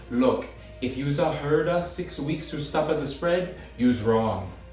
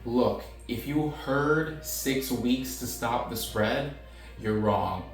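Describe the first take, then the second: First: It is read in an exaggerated mock Italian accent. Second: It is read in a plain, neutral voice.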